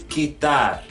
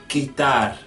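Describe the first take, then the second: The two takes are said the same way.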